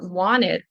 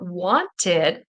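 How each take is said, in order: First: The T in the middle is dropped. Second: The T in the middle is clearly pronounced. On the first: "The T will kind of disappear" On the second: "listening for wanted"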